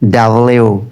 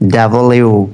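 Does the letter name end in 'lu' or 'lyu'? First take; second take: lyu; lyu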